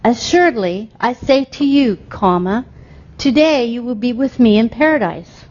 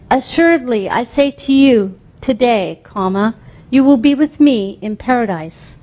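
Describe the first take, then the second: First: The pause comes before "today". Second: The pause comes after "today".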